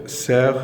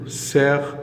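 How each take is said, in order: First: « cerf » dit sèr, le F muet; cerf, F silent. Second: « cerf » dit sèr, sans le F final; cerf, F silent. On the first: (« cerf » sans prononcer le F) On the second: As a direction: say « cerf » with no F sound at the end. (« cerf » prononcé sans le F) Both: Shown as a demonstration. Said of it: "là on ne prononce pas le F".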